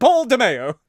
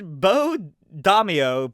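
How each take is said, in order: First: The name ends sounding like the word mayo. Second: The name ends with a dah-mee-oh sound. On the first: The speaker calls it wrong. "I'm sure that's not how it's pronounced" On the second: The speaker calls it right. "probably is closer to how it's pronounced"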